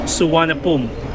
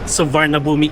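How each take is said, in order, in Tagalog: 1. Binibigkas ito gamit ang lokal na tunog ng Thai. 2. Binibigkas ang bawat letra sa paraang Ingles. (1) "kilala dito sa Thailand na Suvarnabhumi Airport" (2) "kung bibigkasin natin siya the way na sinulat siya"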